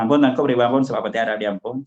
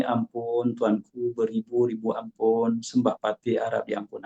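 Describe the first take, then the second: First: Hurried, offhand run-through; quick, sloppy recitation; rushed careless plea. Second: Soft, reverent plea to a king; hushed, respectful servant before the sultan; humble and proper. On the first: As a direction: gabble the words off carelessly. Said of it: "Adakah hamba rakyat datang". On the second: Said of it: "dengan nada yang sesuai". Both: Shown as a demonstration.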